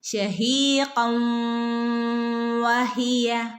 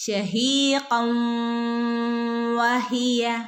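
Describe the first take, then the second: First: The n blends smoothly into the next word. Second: The same.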